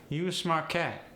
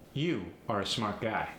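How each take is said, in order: First: High, melodic AAVE. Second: Said in the usual way. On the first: Shown as a demonstration. Teacher showing the dropped "are", AAVE. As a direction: AAVE with pitch lifted. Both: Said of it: "the word are".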